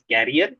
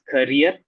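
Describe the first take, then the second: First: The word sounds like carrier. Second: The word sounds like career. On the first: The speaker calls it wrong. "mentioned career as carrier" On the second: The speaker calls it right. "It is pronounced as career"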